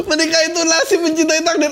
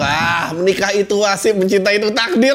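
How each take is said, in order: First: Mocking high quote. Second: Said in the usual way. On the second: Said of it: "repeated mockingly".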